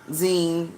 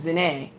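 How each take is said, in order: First: The vowel is an 'ee' sound, rhyming with gene. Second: The vowel is an 'ay' sound, not rhyming with gene. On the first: The speaker calls it wrong. "They kept saying zine, zine, which is like the word gene" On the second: The speaker calls it right. "and it's not, it's Zane"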